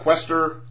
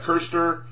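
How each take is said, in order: First: The name is said like Quester. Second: The name is said like Kirster. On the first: "not Quester" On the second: "not Kirster"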